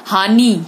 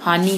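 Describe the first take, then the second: First: हानि with a loud, long final "ee"; mispronounced vowel. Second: Said in the usual way. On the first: Shown as a demonstration. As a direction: stretch हानि to "haa-nee". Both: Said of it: "हानि होता है".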